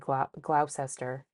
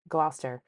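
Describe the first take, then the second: First: It is said the way outsiders say it. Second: It is said the local Massachusetts way. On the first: The speaker calls it wrong. "a lot of people will say ... No" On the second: The speaker calls it right. "the way we're, you actually are supposed to"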